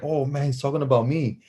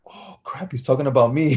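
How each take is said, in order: First: Voiced, mildly worried inner thought; imitated worried kid. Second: Whispered start, then voice returns; imitated dawning dread. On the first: Kid realizing the coach means him, mild worry. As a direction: replay the kid's realization aloud, without whispering. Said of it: "as a kid, I'm like". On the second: Kid realizing the coach means him, whispered dread. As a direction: act out a kid's hushed realization, whisper into voice.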